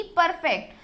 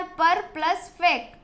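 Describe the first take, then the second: First: Said in the usual way. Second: "पर plus fact" said as two separate parts; syllable breakdown. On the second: Shown as a demonstration. Teacher breaking a word for children, syllable breakdown. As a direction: split "पर" from "fact", with "plus" between them. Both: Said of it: "इसी तरीके से हमें इसको break करना है".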